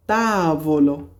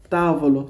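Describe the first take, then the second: First: তাবলো stretched slowly, long first vowel; drawn-out demonstration. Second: Said in the usual way. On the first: Shown as a demonstration. Teacher models তাবলো for Italian learners, drawn-out demonstration. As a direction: draw out the first syllable of তাবলো.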